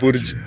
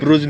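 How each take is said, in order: First: The u comes before the r: burj. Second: The r comes before the u: bruj. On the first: The speaker calls it right. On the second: The speaker calls it wrong. "ब्रुज नाही"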